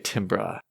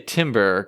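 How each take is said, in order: First: It is pronounced unlike the tree word timber. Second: It is pronounced like the tree word timber. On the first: The speaker calls it right. "so I can say timbre" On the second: The speaker calls it wrong. "I don't want to say timber because that feels like a, a tree's going to fall down"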